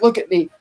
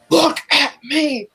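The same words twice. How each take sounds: First: Said in the usual way. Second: Higher, very slow, drawn-out look at me; a lightly voiced villain taunting his captive; creepy villain. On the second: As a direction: stretch "Look at me" out like a menacing taunt. Villain repeats line, second slow, drawn.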